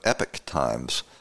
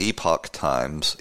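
First: The first word is said like 'epic'. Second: The first word is said like 'epoch'. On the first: The speaker calls it wrong. "She pronounces it, oddly enough, in this clip, Epic Times" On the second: The speaker calls it right. "But it's the Epoch Times"

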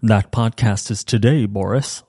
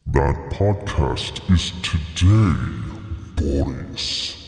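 First: It is said in his normal voice. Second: It is said in a put-on voice.

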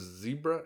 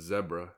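First: Zebra is said with an American pronunciation. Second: Zebra is said with a British pronunciation. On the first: "I'll go with the American" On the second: "if you want to go with the British / African pronunciation"

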